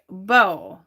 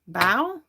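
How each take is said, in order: First: Said like the bow in a hair bow. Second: Said like the bow in taking a bow. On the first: "Like a hair bow?" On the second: "Like take a bow?"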